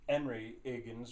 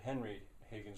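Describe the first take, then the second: First: The initial H sounds are dropped. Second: The initial H sounds are pronounced. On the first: The speaker calls it wrong. "You wouldn't say" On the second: The speaker calls it right. "or at least you'd pronounce that initial H"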